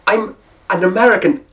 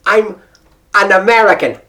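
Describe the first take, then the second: No difference in how they are said.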